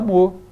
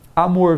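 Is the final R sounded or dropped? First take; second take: dropped; sounded. First: The final R is left off. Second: The final R is pronounced.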